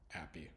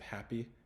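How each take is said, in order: First: The H sound is nearly silent. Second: The H sound is clearly pronounced. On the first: "you might not hear the H actually pronounced" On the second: "instead of happy"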